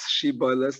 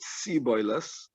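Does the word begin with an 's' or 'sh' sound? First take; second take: sh; s. First: The word begins with a 'sh' sound. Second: The word begins with an 's' sound. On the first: The speaker calls it right. "pronounce a name with a shin" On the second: The speaker calls it wrong. "they pronounced it Siboiles"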